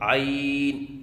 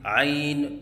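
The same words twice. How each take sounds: First: The final n ends plainly, with no bounce. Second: The final n ends with a bouncing release. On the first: The speaker calls it right. "सही अदायगी है" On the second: The speaker calls it wrong. "आखिर में नून के ऊपर कलकला करना"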